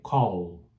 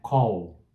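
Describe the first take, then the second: First: The final L is clearly pronounced. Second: The final L sounds like a W. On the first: The speaker calls it right. "tem que falar o L no final" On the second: The speaker calls it wrong. "não é call"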